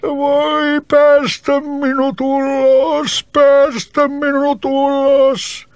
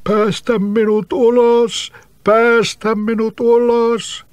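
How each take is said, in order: First: Very high, slow wretched plea; trapped spirit wailing pitifully. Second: High, slow hollow plea from underground; eerie trapped-spirit voice pleading slowly. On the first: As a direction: beg miserably from inside the bottle. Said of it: "huusi surkealla äänellä". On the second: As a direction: call up muffled from beneath the roots. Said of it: "kumealla äänellä sanoi". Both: Acted.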